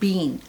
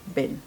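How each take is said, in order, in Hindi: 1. यह ब्रिटिश उच्चारण में कहा गया है। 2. यह अमेरिकी उच्चारण में कहा गया है। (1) "ब्रिटिश एंड हम कहते हैं बीन" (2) "इधर कहते हैं"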